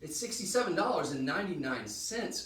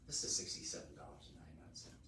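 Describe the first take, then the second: First: The price is said in full voice. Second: The price is said in a whisper. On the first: The speaker calls it right. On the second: The speaker calls it wrong.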